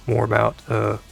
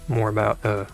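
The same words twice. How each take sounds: The two takes are said the same way.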